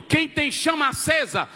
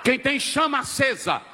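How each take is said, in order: Both takes have the same delivery.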